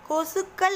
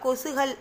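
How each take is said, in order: First: The k sound in the middle is doubled. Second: The k sound in the middle is single. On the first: The speaker calls it right. "கொசுக்கள் அப்படின்னு சொல்லுவியா" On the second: The speaker calls it wrong. "கொசுகள்னு சொல்ல மாட்டோம்"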